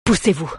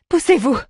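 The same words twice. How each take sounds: First: Understated command; giving an order. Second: High-pitched shouted order; crying out. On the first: Druid clearing the way for prisoners, restrained order. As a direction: order it in an almost everyday voice. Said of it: "ordonna Fingin". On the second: Young woman clears friends from the door, crying out. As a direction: cry the order out, high and sudden. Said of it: "cria-t-elle". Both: A narrator's reading.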